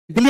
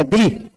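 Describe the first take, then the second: First: दिल्ली said like the Indian capital, with doubled L; wrong name shown. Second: दिल्ली said as "Dili", with a single L; corrected pronunciation. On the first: Teacher rejects the Indian capital's name, दिल्ली with doubled L. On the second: Teacher corrects East Timor's capital, दिल्ली said as single-L Dili. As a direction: say दिल्ली as Dili, without doubling the L. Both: Shown as a demonstration. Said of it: "दिल्ली नहीं है, दिल्ली".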